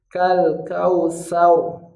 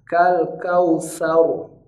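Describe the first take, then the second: The two takes are said the same way.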